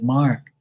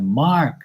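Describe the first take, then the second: First: Said in the usual way. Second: Said up for deaf aunt. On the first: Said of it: "I'm like". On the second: Retold or imitated. Boy repeats name to deaf great-aunt, raised voice. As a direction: MARK pitched up and projected a little. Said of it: "And she's deaf as shit".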